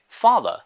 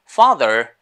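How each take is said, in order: First: Father in British style, final r dropped; British pronunciation. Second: Father with an American r at the end; American pronunciation. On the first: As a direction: say "father" the British way, ending on an open vowel. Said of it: "pronounce it like British". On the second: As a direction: say "father" the American way, ending on a sounded r. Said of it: "is in American English". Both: Shown as a demonstration.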